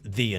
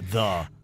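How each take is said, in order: First: The vowel is a long 'ee' sound. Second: The vowel is a short 'uh' sound. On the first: The speaker calls it right. "it needs to be pronounced The" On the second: The speaker calls it wrong. "not The Boca Raton"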